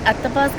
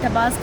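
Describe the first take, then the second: First: The word starts with an 'a' vowel sound. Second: The first vowel is silent; it starts with 't'.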